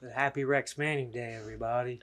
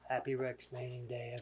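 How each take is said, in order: First: It is said loudly. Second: It is said quietly.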